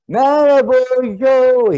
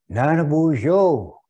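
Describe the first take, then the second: First: It is hollered as loudly as possible. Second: It is said fairly loudly.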